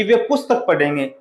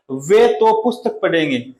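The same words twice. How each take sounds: First: Said in the usual way. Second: Weight on "वे तो"; stress on वे तो. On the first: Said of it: "ये ऐसे भी हो सकता है". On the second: Shown as a demonstration. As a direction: press वे तो. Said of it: "बल दिया गया है".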